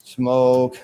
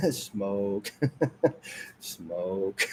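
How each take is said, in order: First: Said in the usual way. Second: Fading laughing whisper. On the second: Shown as a demonstration. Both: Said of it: "Watch this".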